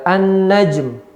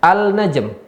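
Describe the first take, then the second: First: The l is dropped and merges into the n. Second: The l is clearly pronounced before the n. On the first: "tapi hilang dia" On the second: "harusnya al-najm"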